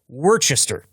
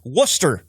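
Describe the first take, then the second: First: The name is said with every spelled syllable. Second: The name is said in a shortened form. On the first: The speaker calls it wrong. "So Worcester is what I hear" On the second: The speaker calls it right. "all those fine people in Massachusetts will tell you this is Worcester"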